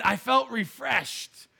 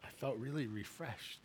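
First: Slow, savoring each word; drawn-out quote. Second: Soft quote. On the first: Retelling wife's verdict on the ride, slow and savoring. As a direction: stretch it out like a punchline. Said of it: "But she said". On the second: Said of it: "She said". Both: Retold or imitated.

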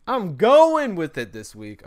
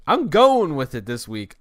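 First: Higher, louder, slow mock-grand declaration; hammed-up repeat. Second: Louder and slower, owning it; shrugging off a bad podcast, loud and slow; loud, slow resolve. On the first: Joking to listeners about a rambling episode, mock-grand and loud. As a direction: stretch it out like a silly proclamation. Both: Real, not acted. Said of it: "this is gonna be a horrible podcast".

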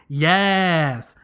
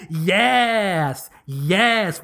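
First: Said in the usual way. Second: "yes" said "yass" with A vowel; drawn-out yass, yass. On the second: Shown as a demonstration. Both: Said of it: "with the A's instead of the E's".

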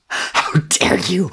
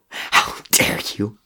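First: How dare you! yelled high and slow, YOU hammered; full-throated slow high yell; shouted. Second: How dare you! forced out slow and breathless, almost a sob; strangled rage, barely voiced; choked fury. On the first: Acted. Crow screaming at the coward, high slow yell. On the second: Crow to Murdoch, strangled slow fury. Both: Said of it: "he shouted".

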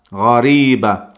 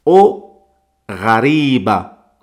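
First: Ghariba repeated at normal pace; Arabic pronunciation. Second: Ghariba slow, the gh from the throat; Arabic pronunciation. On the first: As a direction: repeat ghariba once more. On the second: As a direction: model the feminine ghariba slowly. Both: Shown as a demonstration. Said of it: "si es femenino".

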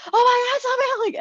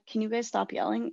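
First: High, loud mock yell at parents. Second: Said in the usual way. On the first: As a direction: yell back at them to stop yelling. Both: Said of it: "I'll just yell at them to stop yelling".

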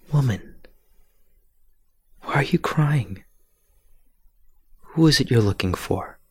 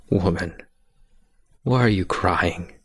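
First: Gentle, higher, half-whispered question; kind voice. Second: Said in the usual way. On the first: Acted. Jesus gently asking weeping Mary at the tomb, kind voice. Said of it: "And in a kind voice". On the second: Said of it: "And they asked".

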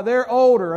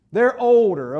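First: Put-on "older" hit louder and falling; stress on older. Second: Put-on firm, louder "They're older"; stressed "older". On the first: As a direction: press on "older" with a falling tune. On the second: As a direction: lean on "older" to correct "old". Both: Shown as a demonstration. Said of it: "I've learned not to call people old".

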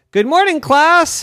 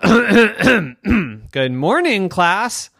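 First: High, loud cheery teacher voice; bright teacher greeting. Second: Very slow, drawn-out teacher greeting; slow stern greeting. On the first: Girl playing teacher greets her class cheerfully. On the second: Girl repeats greeting slowly to silent class. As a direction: stretch each word, insisting. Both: Acted.

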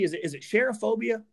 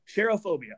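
First: Cherophobia asked as an unsure guess with a rising question; unsure pronunciation. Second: Cherophobia said firmly as SHER-oh-FOH-bee-uh with a falling end; settled pronunciation. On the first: Host asking co-host how to pronounce it, unsure guess. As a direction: try out cherophobia tentatively. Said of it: "How do you pronounce this". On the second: Host settling the word for his co-host, firm pronunciation. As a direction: state cherophobia decisively, sher-oh-phobia. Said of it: "I'm gonna say cherophobia". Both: Shown as a demonstration.

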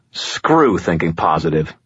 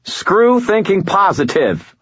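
First: Growled, contained irritation; low growl. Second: High, slow, exasperated half shout. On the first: Man picking up the ringing phone, contained growl. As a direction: growl it under control, without raising the voice. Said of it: "picked up the phone and growled". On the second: Annoyed man repeating himself to a caller, half shout. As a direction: raise the pitch and punch it out slowly. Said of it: "I half shouted". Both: A narrator's reading.

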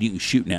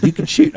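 First: Said in the usual way. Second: High, louder urging; insistent repeat. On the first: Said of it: "I look at Dad". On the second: Retold or imitated. Guide urging his hesitant dad to shoot, high loud insistence. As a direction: push it, high and loud this time. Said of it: "and I said".

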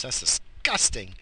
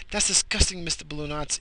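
First: Said in the usual way. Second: High teasing disgusted voice; playful higher voice of fake revulsion; mock disgust.

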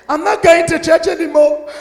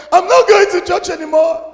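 First: Put-on high, childish whine; sulky quitter voice, higher; mock sulky complaint. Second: Even higher whining repeat; hammed-up sulking whine; mock sulky complaint, higher. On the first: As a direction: pout like a sulking churchgoer. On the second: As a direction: pout harder the second time. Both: Mocking a sulking believer.

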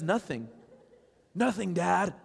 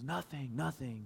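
First: Higher, louder imitation of a child; mock insistent denial. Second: Soft, small imitation of a child's denial; retold brush-off. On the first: Daughter fending off dad, retold insistent denial. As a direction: push dad away with a high mock protest. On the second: Tearful daughter answering dad, retold soft brush-off. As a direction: quietly dodge the question, imitating her.

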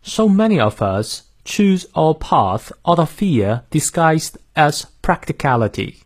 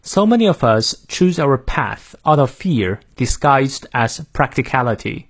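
First: Slow British model reading, r-less "fear"; British accent. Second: American accent. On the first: Teacher modelling the sentence for learners, British accent. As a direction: read it in careful British English, "pahth" for path. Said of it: "英式发音，我来念两遍". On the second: Teacher modelling the sentence for learners, American accent. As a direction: read it in careful American English, flat a in "path". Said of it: "美式发音，我来念两遍". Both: Shown as a demonstration.

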